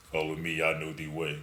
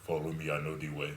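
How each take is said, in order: First: Put-on deep African accent voice. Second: Put-on deep voice African accent; low African accent, a bit quick. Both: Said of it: "In that African deep voice".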